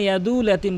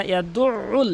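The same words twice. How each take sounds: First: "ইয়াদুল" as a smooth long u, no throat sound; mistaken, ayn dropped. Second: "ইয়াদুল" split by a pressed throat ayn; ayn pronounced. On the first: Teacher warns against this, ayn left out. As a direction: run "ইয়াদুল ইয়াতীম" on without ayn. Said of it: "বলবেন না". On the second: Teacher corrects the omission, strong ayn. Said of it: "আইনের উচ্চারণটি বাদ দিয়ে ফেলে". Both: Shown as a demonstration.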